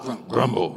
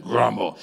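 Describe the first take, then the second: First: Said in the usual way. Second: Low, mock-angry growled word; a touch of put-on anger. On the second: Shown as a demonstration. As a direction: say it like you're angry, playfully. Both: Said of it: "You gotta say it like you're angry".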